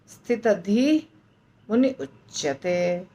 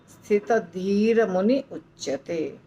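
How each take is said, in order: First: No 'r' sound comes between 'dhi' and 'muni'. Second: An 'r' sound links 'dhi' to 'muni'. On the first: The words are said without sandhi. "अगर ऐसा नहीं बोल सकते हैं तो बोलेंगे" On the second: The words are joined by sandhi. "बीच में रेफ आता है, तो हमको बोलना है वैसे"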